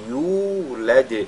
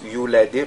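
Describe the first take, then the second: First: The vowel after the y is long. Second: The vowel after the y is short. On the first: The speaker calls it right. "mais yulad" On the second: The speaker calls it wrong. "il ne faudrait pas lire you, yulad"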